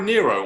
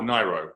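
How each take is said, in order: First: Nyro with first syllable like "near"; Nyro as NEER-oh. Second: Nyro with first syllable like "nigh"; Nyro as NIGH-roh. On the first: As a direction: say Nyro as NEER-oh, long ee sound. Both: Shown as a demonstration. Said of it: "is it [name] or [name]".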